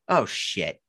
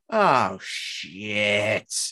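First: The word shit is said short and plain. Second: The sh sound of shit is held out long.

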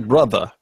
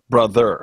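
First: The final er sound is dropped. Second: The final er sound is clearly pronounced. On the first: "not say brother" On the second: "careful to enunciate the ER"

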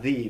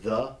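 First: The vowel is a long 'ee' sound. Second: The vowel is a short, reduced sound. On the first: The speaker calls it wrong. "not the" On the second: The speaker calls it right. "but the, that short E"

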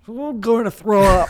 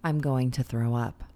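First: It is said as if about to vomit. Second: It is said in a normal voice.

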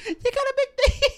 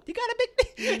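First: It ends with a rising, question tune. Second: It ends with a falling, statement tune.

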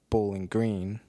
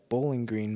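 First: The stress is on the word green. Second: The stress is on the word bowling. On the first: It is the usual way of saying the name. "conventional wisdom has you pronounce it Bowling Green, emphasis on the green" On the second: It names a lawn for playing bowls. "makes it seem more like what the original intention would be"

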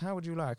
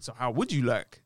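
First: It is said in a plain, polite way. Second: It is said in a suggestive, inviting way.

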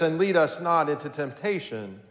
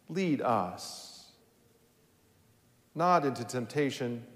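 First: It runs on with no pause after "lead us." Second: There is a pause after "lead us."

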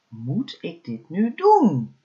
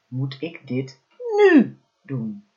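First: The stress falls on the word doen. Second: The stress falls on the word nu. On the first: "elke keer de klemtoon op een ander woord gelegd" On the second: "elke keer de klemtoon op een ander woord gelegd"

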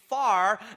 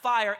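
First: The word is drawled to sound like 'far'. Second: The word is said as a plain 'fire'. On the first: "It's far, F-O-U-R, far of the Holy Ghost" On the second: "it's not fire, F-I-R-E"

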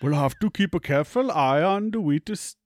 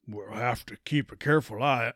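First: It is said in an Indian accent. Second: It is said in a cowboy accent.

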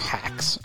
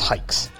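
First: The name is said with a short 'a' vowel. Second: The name is said with a single long 'i' vowel. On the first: The speaker calls it wrong. "Not hikes, or hacks" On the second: The speaker calls it right. "It's hikes"

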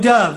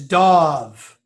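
First: The vowel sounds like in 'love'. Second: The vowel sounds like in 'dawn'. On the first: The speaker calls it wrong. "no Dov" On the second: The speaker calls it right. "It's Dov"

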